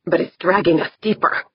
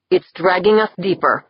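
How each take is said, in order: First: Fast, voice near cracking; rushed and strained, near breaking; voice almost cracking. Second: Flat voice edged with surprise; calm but startled, hint of fear; surprised, a touch of fear. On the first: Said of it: "his voice almost cracking". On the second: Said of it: "his normally impassive voice edged with surprise, even fear". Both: A narrator's reading.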